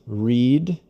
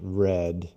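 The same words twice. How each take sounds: First: It is said as the present-tense form. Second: It is said as the past-participle form. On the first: The action happens now or habitually. "the pronunciation is read in the present" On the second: The action is completed. "read in the past participle"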